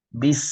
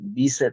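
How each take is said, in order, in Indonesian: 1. Kata berakhir langsung pada bunyi s. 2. Vokal tambahan ditambahkan setelah s. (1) "tapi bis" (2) "jangan bisa"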